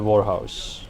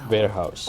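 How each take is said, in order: First: The first part sounds like 'war'. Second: The first part sounds like 'ware'. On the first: The speaker calls it wrong. "It's not a house of war" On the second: The speaker calls it right. "It's wares"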